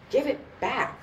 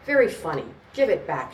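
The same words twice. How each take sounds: First: High, restrained screech; rising screech. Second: Loud, thick-lipped tipsy demand; thick-tongued. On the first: Woman demands her purse from the gangster, high mild screech. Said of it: "Her voice rose into a screech". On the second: Tipsy woman confronts the gangster over her purse, thick-tongued and loud. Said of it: "her tongue and lips thick on the words". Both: A narrator's reading.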